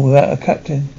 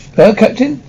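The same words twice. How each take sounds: First: Said in the usual way. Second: Higher-pitched, rising echo question; eager, surprised question; astonished cry. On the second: A narrator's reading. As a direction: repeat it back in excited disbelief, pitch lifting. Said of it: "cried Dentes, his eyes sparkling".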